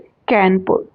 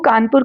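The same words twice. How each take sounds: First: The name is said with British pronunciation. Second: The name is said with Indian pronunciation.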